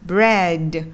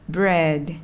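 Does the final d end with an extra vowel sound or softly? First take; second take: extra vowel; soft. First: The final d ends with an added vowel. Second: The final d is released softly and lightly. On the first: The speaker calls it wrong. "Đừng đọc là" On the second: The speaker calls it right. "đọc nó rất là tinh tế thôi"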